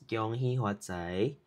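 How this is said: It is said in Hokkien pronunciation. "Hokkien is"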